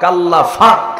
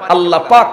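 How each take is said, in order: First: The second word starts with an f sound. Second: The second word starts with a p sound. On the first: The speaker calls it wrong. "Noakhali প হয় না" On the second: The speaker calls it right. "আল্লাহ পাক হয় না"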